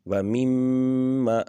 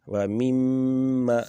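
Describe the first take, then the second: The two takes are said the same way.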